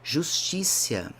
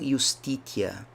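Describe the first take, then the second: First: It is said in the softer church-Latin style. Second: It is said in the classical Roman Latin style. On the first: The speaker calls it wrong. "mais fluida, mais suave do latim, mas é típica da Igreja Católica" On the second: This is closer to how ancient Romans spoke. The speaker calls it right. "seria talvez uma pronúncia um pouco mais exata, romana"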